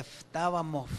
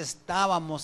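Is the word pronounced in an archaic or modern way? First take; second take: archaic; modern. First: It is pronounced the old Spanish way. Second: It is pronounced the ordinary modern way. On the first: "allá dice estábamos, así" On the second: "donde dice estábamos"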